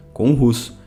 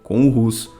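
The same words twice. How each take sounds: The two takes are said the same way.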